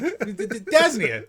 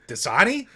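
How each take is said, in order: First: It is said as Das-nee-uh, sounds swapped. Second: It is said as Da-sah-nee, three clear syllables. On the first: The speaker does not know the brand's real name. The speaker calls it wrong. "He's like, Dasnia" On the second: This is the brand's real name. The speaker calls it right. "We're like, Dasani?"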